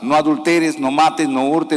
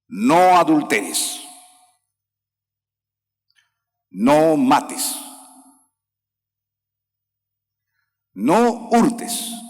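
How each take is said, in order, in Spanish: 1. Las frases se unen sin pausas claras. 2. Cada frase está separada por una pausa clara. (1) "No vayas a leer así" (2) "Y así tienes que leer"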